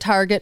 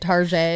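First: The word ends with a hard 'get' sound. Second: The word ends with a soft 'zhay' sound.

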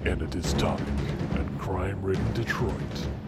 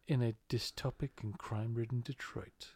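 First: It is read in a dramatic movie-trailer voice. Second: It is read in a normal speaking voice.

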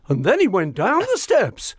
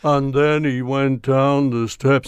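First: It is read with more enthusiasm. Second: It is read flatly, without enthusiasm.

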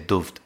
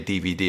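First: It is read as one short word. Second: It is spelled out as three separate letters. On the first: "I say duft" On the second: "I don't say DVD"

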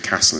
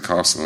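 First: Castle is said in a northern English accent. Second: Castle is said in a southern English accent. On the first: This is how it was said growing up in the north. "when I was growing up, I would say castle" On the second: This is the standard southern form used instead. "instead of castle"

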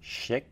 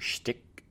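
First: No t sound follows the sh sound. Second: A t sound follows the sh sound. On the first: The speaker calls it right. "There we go. The T is silent" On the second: The speaker calls it wrong.

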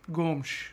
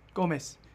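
First: It is said the European Portuguese way. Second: It is said the Brazilian Portuguese way.

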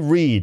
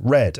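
First: The vowel is long, like 'reed'. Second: The vowel is short, like 'red'. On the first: People still do it now. The speaker calls it right. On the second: It happened in the past. The speaker calls it wrong.

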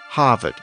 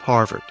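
First: The R after the vowel is dropped. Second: The R after the vowel is pronounced.

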